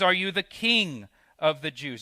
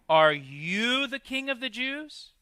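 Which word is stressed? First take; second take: king; you. First: The stress is on the word king. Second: The stress is on the word you.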